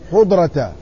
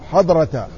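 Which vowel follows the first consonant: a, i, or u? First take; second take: u; a. First: The first vowel is a short u. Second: The first vowel is a short a. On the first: "وضمها" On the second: "بفتح الحاء"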